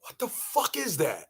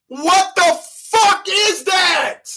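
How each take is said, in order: First: Low muttered aside. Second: Drawn-out high shout. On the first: Comic repeating the question, low muttered aside. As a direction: drop way down, low and soft. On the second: Comic ranting at her math, drawn-out high shout. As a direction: howl the question slowly. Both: Acted.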